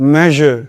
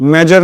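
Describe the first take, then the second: First: The middle consonant is a soft zh sound. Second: The middle consonant is a hard j sound. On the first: The speaker calls it right. "ज sound" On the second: The speaker calls it wrong. "मेजर नहीं"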